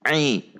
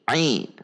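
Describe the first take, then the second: No difference in how they are said.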